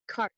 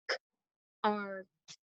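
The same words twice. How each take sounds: First: Said in the usual way. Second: "K-R-T" as three separate sounds, softly spaced; tapped out sounds. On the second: Shown as a demonstration. Teacher tapping out a word for pupils, segmented "K-R-T". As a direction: break "K-R-T" into k, ar, t with gaps. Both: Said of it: "let's tap it out".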